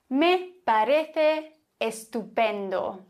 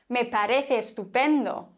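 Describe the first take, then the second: First: The two E sounds are pronounced separately. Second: The two E sounds merge into one.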